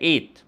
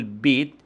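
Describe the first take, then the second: First: إيت starting on the vowel, no b; child's إيت, vowel-initial; first consonant dropped. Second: Said in the usual way. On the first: Shown as a demonstration. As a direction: say إيت with the opening b missing. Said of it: "حذف أول ساكن". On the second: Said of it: "لما يقول بيت".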